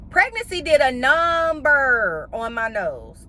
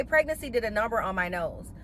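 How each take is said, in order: First: NUMBER stretched out long, higher; drawn-out emphasis. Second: Said in the usual way. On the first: Real, not acted. Host admitting what pregnancy did to her nose, drawn-out emphasis on "number". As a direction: drag out "number" slowly for emphasis. Emphatic first take, then repeated.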